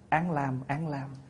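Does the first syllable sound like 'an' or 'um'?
an. The first syllable is pronounced like an. This is the common current reading. "mình đọc bây giờ là"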